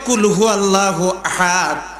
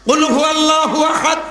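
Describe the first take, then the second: First: The first word is said with a soft sound. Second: The first word is said with a forceful sound. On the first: A command to eat, changing the meaning. The speaker calls it wrong. "আস্তে করে বলে" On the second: A command to declare that God is one. The speaker calls it right. "এই কথাটা বললে"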